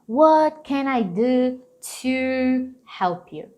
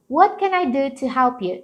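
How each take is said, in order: First: The word 'to' is full and clearly pronounced. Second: The word 'to' is weak and reduced. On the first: The speaker calls it wrong. "Eles não vão falar" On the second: The speaker calls it right. "às vezes eles só vão dar uma marcadinha nele"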